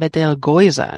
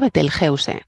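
First: It is pronounced the German way. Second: It is pronounced the Spanish way. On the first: "Y en alemán lo llaman Betelgeuse" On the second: "dice que se pronuncia Betelgeuse, como suena"

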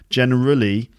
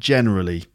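First: The stress falls on a later syllable. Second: The stress falls on the first syllable. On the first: The speaker calls it wrong. "not generally" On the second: The speaker calls it right. "generally is on the first syllable too"

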